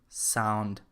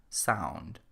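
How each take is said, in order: The two takes are said the same way.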